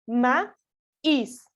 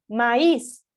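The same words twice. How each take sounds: First: "Maíz" split into ma, pause, ís; teacher dividing "Maíz" slowly at the hiatus; syllable by syllable. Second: Said in the usual way. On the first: Shown as a demonstration. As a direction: break "Maíz" into two separate syllables. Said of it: "hacer la división". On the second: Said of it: "la sílaba tónica".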